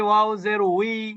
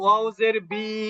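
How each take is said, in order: First: The syllable starts with a w sound. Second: The syllable starts with a b sound. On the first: The speaker calls it right. "আমরা যদি বলি ওয়াও জের উই" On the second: The speaker calls it wrong. "কেউ কেউ বলি ওয়াউজের বি"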